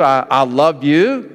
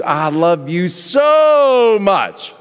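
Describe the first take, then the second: First: Said in the usual way. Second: "so" stretched long and leaned on; slow, let "so" carry all the intensity; stress on so. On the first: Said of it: "that means one thing". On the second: Shown as a demonstration. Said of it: "the so carries the intensity".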